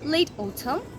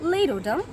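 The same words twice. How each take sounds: First: It is said in a British accent. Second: It is said in an American accent. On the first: "British অ্যাকসেন্টে সিজনসের name বলতে চাই" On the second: "in the American accent"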